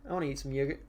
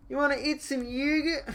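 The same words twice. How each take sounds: First: Said in the usual way. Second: High silly voice asking about yogurt; silly Italian voice. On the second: Pretend. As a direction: squeak it like a cartoon Italian.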